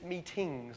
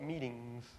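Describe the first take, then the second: First: The word is said in an English accent. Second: The word is said in an American accent. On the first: This is the speaker's original way of speaking. The speaker calls it right. "it's meetings" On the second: The speaker's speech has picked up American habits. The speaker calls it wrong. "not meetings"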